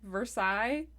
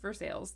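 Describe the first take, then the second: First: The name is said with a French pronunciation. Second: The name is said with an American pronunciation. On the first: This is the original place name. "it's literally Versailles" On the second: This is what the local people call it. "they've just said nope, it's Versailles. That's what we call it"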